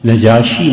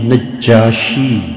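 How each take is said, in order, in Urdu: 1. ج کی آواز چھوٹی اور اکہری ہے۔ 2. ج کی آواز کھینچی ہوئی اور دوہری ہے۔ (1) "نجاشی نہیں ہے" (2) "نجاشی جیم پہ شد ہے"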